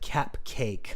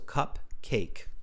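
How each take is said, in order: First: The first syllable sounds like 'cap'. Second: The first syllable sounds like 'cup'. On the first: "in India we pronounce it cap cake" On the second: "it's cup because of the cup"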